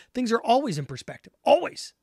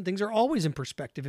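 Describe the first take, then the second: First: "always" pushed higher and louder, then "Always." alone, higher still; firm, rising stress on "always". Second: Said in the usual way. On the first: Real, not acted. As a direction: hammer the word "always" and repeat it. Repeats the line louder.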